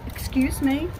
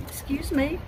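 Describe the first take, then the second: No difference in how they are said.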